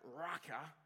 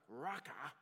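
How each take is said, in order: First: Raca spat out, scornful. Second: Raca spat out with contempt; Raca said with scorn. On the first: Preacher demonstrating Raca to congregation, sneering. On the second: Preacher sneering Raca at a brother. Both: Shown as a demonstration. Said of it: "and you've gotta say it like that".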